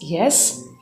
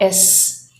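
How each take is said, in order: First: The word starts with a clear y sound. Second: The word starts with a vowel, no y sound. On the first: The speaker calls it right. "but it's yes" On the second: The speaker calls it wrong. "it's not S"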